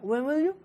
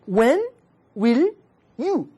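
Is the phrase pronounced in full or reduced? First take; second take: reduced; full. First: The words run together with little mouth opening. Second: Each word is pronounced fully and separately. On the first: "그게 그냥 입을 안 벌리고 읽는 거야" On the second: "어렵죠? 발음이 어렵단 말이에요"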